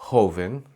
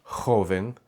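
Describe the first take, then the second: The two takes are said the same way.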